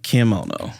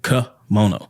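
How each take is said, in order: First: The first syllable sounds like the name Kim. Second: The first syllable is a weak 'kuh' sound. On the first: This is how the brand says it. "they were pronouncing it kimono" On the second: This is the usual way to say the word. "that's how you pronounce it, ka"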